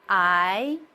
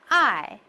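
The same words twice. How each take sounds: First: The pitch rises from middle to high. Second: The pitch falls sharply from high to low. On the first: "The second one is upward" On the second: "The fourth goes from the top to the lowest"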